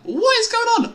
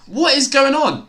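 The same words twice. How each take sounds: First: Squeaky cracked disbelief. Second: Loud, high, incredulous call; raised stunned question; excited disbelief. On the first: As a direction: voice cracking up high in real disbelief. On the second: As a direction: shout it in real disbelief at the play. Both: Real, not acted. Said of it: "Nice voice crack".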